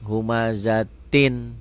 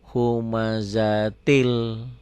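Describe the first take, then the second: First: The word ends with an n sound. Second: The final n becomes an l sound.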